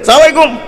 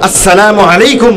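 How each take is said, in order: First: The greeting is rushed with syllables swallowed. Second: The greeting is slow with every syllable clear. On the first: It is careless and hard to understand. The speaker calls it wrong. "মানে বুঝাই যায় না কি কয়" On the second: It is the proper, respectful greeting. The speaker calls it right. "আস্তারে ভালো করে শুদ্ধ স্পষ্ট করে বলেন"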